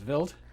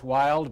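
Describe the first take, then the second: First: The word begins with a V sound. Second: The word begins with a W sound. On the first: This is the German way of saying it. "in German it's wild" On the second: This is the English way of saying it. "we would say in English wild"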